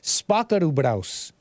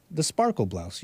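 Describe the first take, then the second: First: Slow, put-on Asian accent; mock Asian accent. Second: Said in the usual way. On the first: Host stuck in the accent from a super chat, mock Asian accent. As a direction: draw it out in an imitated Asian accent. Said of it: "I was Asian locked in my accent". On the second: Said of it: "I'm sorry, I was, I was Asian locked".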